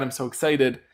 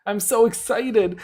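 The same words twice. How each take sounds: First: Said in the usual way. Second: I'm so excited, higher and drawn out, slow; squealing excitement. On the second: Real, not acted. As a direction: stretch it out with giddy delight.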